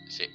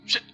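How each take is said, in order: First: The word is said at normal volume. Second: The word is said at high volume. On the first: The sender is someone with no conflict. "kita membacanya secara biasa" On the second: The sender is someone one has had conflict with. "malah volumenya tinggi"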